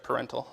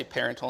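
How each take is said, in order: First: "parental" with stress on the middle syllable; corrected pronunciation. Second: "parental" said like "parent" plus "-al"; own habitual pronunciation. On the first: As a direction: say "parental" as puh-REN-tul. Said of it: "instead of parental". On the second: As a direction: stress the first syllable of "parental", PAIR-en-tul. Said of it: "I say parental instead of parental". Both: Shown as a demonstration.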